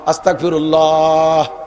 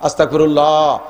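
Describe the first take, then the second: First: It is drawn out the longest. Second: It is drawn out somewhat longer.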